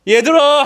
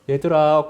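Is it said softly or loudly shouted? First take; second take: loudly shouted; softly. First: It is loudly shouted, as if calling far. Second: It is said softly, at normal volume.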